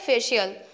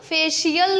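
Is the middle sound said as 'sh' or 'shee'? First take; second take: sh; shee. First: The middle is said as a short 'sh' sound. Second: The middle is said as a full 'shee' syllable. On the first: The speaker calls it right. "मतलब आधा शाह रहता है" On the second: The speaker calls it wrong. "फेशियल नहीं होगा"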